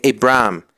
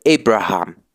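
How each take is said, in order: First: "Abraham" said as "Abram", no h sound at all; "Abraham" said like "Abram", the h silent; Abraham without the h. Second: "Abraham" with a breathed h before the last syllable: "A-bra-ham"; "Abraham" with an audible aspirated h, "bra-HAM". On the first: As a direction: drop the h in "Abraham": "A-bram". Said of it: "No se dice Abraham". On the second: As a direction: breathe the h in "Abraham", Hebrew style. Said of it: "se dice Abraham". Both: Shown as a demonstration.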